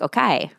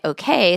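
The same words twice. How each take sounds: First: It is said with an Italian-sounding accent. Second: It is said in a plain American accent. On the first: "sounds a lot more like okay" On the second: "my okay"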